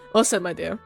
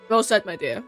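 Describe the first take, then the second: First: The voice is pitched deep and low. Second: The voice is at a normal pitch. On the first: The speaker calls it right. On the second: The speaker calls it wrong.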